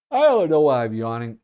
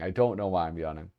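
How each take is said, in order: First: Talking through a real yawn; loud, stretched words mid-yawn. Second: Said in the usual way. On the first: Real, not acted. Streamer puzzled at their own midday tiredness, yawning.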